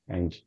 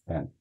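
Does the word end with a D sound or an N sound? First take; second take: D sound; N sound. First: The word ends with an added D-ee sound. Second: The word ends cleanly on the N sound. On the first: The speaker calls it wrong. "a pessoa já sabe ali na hora que ela não é nativa, por causa do end" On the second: The speaker calls it right. "Mas aí sempre falar ele and"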